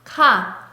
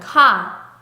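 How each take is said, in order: The two takes are said the same way.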